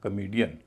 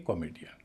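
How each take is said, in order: First: The first vowel is weak and reduced. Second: The first vowel is a full 'o' sound. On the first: The speaker calls it right. "पूरे शब्द को बोला जाएगा" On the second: The speaker calls it wrong. "न कि"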